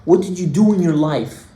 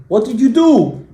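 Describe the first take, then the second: First: Said in the usual way. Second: "What did you do?" pushed higher and louder, falling on "do"; insistent repeated question. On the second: Retold or imitated. Helper questioning the crying man, insistent stress on "do". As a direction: press hard on "do", high then dropping.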